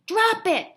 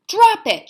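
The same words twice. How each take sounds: First: High, loud command to a dog; shout. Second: Very loud, high shouted command. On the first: Mother yelling at the dog: sharp shout. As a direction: yell it at the dog. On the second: Mother shouting at the dog to let go: full shout. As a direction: bellow it at the dog. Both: A narrator's reading. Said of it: "she shouted to Rosie".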